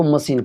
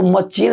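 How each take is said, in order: First: मशीन as "ma-seen"; correct pronunciation. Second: मशीन as "ma-cheen"; hard "ch" in the middle of मशीन; wrong pronunciation. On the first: Teacher giving students the right reading, correct pronunciation. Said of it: "इसको मशीन पढ़ना है". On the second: Teacher warning students off the mistake, wrong pronunciation. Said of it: "इसको मशीन नहीं पढ़ना". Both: Shown as a demonstration.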